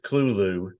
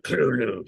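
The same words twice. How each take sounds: First: The name is said plainly, without a throaty sound. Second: The name is said with a rough, throaty sound. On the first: "it's Clulu" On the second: "I think it's more guttural"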